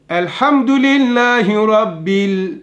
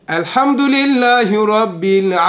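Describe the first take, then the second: Both takes have the same delivery.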